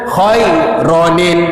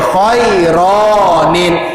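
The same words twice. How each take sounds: First: The vowel after the r is kept short. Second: The vowel after the r is drawn out long. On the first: The speaker calls it right. "bunyinya satu harkat saja ra tu" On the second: The speaker calls it wrong. "dia tak boleh khairanil"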